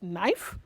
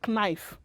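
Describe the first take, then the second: First: The K is silent at the start. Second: The K is sounded at the start. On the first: The speaker calls it right. "the correct pronunciation is knife" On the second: The speaker calls it wrong. "nobody pronounces this as knife"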